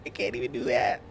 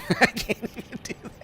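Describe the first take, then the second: First: Said in the usual way. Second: Laughing. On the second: Real, not acted. Laughing at own failed attempt.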